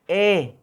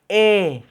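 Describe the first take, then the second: Both takes have the same delivery.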